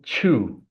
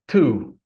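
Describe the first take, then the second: First: The word begins with a ch sound. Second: The word begins with a plain t sound. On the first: The speaker calls it wrong. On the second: The speaker calls it right.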